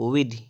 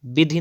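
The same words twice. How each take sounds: First: विधि starting with v; correct pronunciation. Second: विधि starting with b; closed-lip b opening विधि; wrong pronunciation. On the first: Teacher correcting, विधि as vidhi. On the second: Teacher showing the error, विधि as bidhi. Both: Shown as a demonstration. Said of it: "विधि नहीं".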